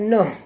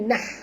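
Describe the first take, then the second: First: The vowel sounds like 'oh'. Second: The vowel sounds like 'ah'. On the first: The speaker calls it wrong. "bukan noh" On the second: The speaker calls it right. "tapi nah ya"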